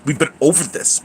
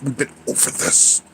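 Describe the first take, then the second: First: Said in the usual way. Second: Soft unvoiced whisper, a little quieter; hushed weary whisper. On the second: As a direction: whisper it back as a tired aside. Repeating line to chat.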